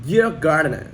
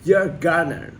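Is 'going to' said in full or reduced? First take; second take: reduced; reduced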